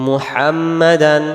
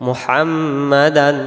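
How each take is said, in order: Both takes have the same delivery.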